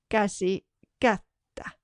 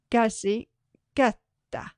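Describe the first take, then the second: No difference in how they are said.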